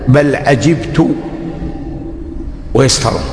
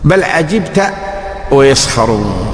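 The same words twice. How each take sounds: First: The verb ends with a short 'tu' sound. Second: The verb ends with a short 'ta' sound. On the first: The speaker himself is the one who marvels. "وهي قراءة حمزة والكسائي ... بل عجبت أنا" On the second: The one addressed is the one who marvels. "بل عجبت أنت من أمرهم يا محمد"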